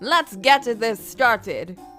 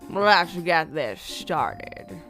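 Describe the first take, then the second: First: It is said in an Italian mafia voice. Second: It is said in a deep smoky voice.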